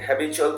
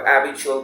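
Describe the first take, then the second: First: The word begins with an h sound. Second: The word begins without an h sound. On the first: This is how the word is said now. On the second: This is how people said it in the past.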